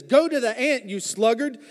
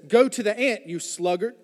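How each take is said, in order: First: Mildly salty Solomon. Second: Said in the usual way. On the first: Retold or imitated. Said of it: "he's getting a little aggravated". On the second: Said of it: "Solomon's a little salty right now".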